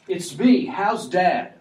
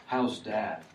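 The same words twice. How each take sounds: First: Higher, louder "How's Dad?" burst out eagerly; eager Joseph. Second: Said in the usual way. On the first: Shown as a demonstration. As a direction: blurt "How's Dad?" as an excited brother. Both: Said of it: "Immediately changing".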